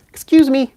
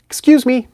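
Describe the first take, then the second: First: Very high, loud squeaky bird voice; high budgie voice. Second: Very high, loud little bird squeak; budgie voice. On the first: Copying how the budgie says excuse me. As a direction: squeak it out like a tiny parrot. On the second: Imitating the pet budgie asking to be excused. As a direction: chirp it like a tiny budgie. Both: Retold or imitated. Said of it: "in his high little budgie voice".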